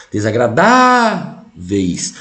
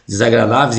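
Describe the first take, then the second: First: "desagradáveis" very slow, with DA held long and raised; calling the word. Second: Said in the usual way. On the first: Shown as a demonstration. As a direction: call out "desagradáveis", dragging the stressed DA. (chamando "desagradáveis", com o DA bem esticado) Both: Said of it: "Quando você chama a palavra".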